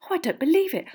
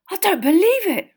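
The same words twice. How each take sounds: First: Put-on high, flustered girlish wail; flustered dismay in a high girl's voice; frantic fangirl. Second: High, loud astonished outburst; stunned boy, pitch shooting up. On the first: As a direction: fret like an excited schoolgirl. Girls frantically searching their pockets. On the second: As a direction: gasp it out in amazed disbelief. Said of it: "in a stunned voice". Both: A narrator's reading.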